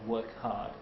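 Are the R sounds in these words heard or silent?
silent. The R sounds are dropped, British style. "it's hard work to learn"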